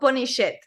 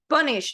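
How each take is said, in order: First: The ending adds an extra id syllable. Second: The ending is a plain t sound. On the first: The speaker calls it wrong. "not punish it" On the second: The speaker calls it right. "punished, not"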